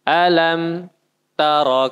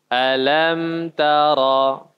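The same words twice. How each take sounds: First: There is a short stop after alam. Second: The two words are joined without stopping. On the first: The speaker calls it wrong. "tidak boleh juga tadi berhenti sejenak" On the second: The speaker calls it right. "Langsung gabung ya"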